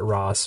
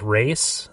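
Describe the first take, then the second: First: The name rhymes with 'boss', with an 'ah' vowel. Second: The name rhymes with 'face', with an 'ay' vowel. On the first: This is how the speaker always said the name. "I always pronounced it Ross" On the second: This is how the game pronounces the name. "which is weird that they pronounce it differently"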